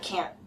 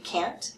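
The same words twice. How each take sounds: First: The final T sound is cut off. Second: The final T sound is clearly released. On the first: "Some people just cut it off" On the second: "Sometimes you'll hear the T"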